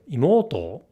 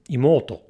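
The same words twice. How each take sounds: First: The pitch movement is exaggerated and very noticeable. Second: The pitch movement is mild and less noticeable. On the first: "which is more noticeably wrong" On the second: "which is wrong"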